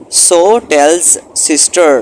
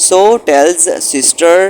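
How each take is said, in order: Both takes have the same delivery.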